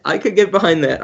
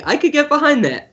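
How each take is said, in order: First: Said in the usual way. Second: Raised pitch, eager; high excited agreement. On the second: Real, not acted.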